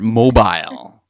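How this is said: It is said in an exaggerated, sophisticated accent.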